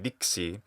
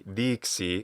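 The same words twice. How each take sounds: First: The first vowel is short. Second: The first vowel is long. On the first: The speaker calls it wrong. "and not merely dixi" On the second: The speaker calls it right. "this vowel is long"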